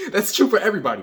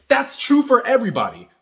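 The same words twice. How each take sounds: First: Faster, laughing through the words; laughing repeat. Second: Higher and louder, driving the point home; emphatic. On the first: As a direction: say it again chuckling. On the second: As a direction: punch it out with conviction. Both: Real, not acted.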